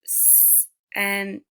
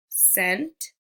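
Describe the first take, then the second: First: "s-, and" as the separate sounds of scent, long s first; sounded out. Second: Said in the usual way. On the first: Shown as a demonstration. Teacher showing pupils C making the S sound, sounded out. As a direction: hold the s in "s-, and", then give the other sounds apart. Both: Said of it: "like in the word".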